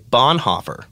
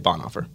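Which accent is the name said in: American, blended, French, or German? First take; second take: American; blended. First: The name is said with an American accent. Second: The name is said in a mix of accents. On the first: "One is the American way" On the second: "So I kind of blend them all"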